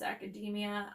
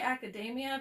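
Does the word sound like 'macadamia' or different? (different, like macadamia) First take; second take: different; like macadamia. First: It is said not rhyming with macadamia. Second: It is said to rhyme with macadamia. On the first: "I think it might be pronounced academia" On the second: "it sounds like macadamia nut"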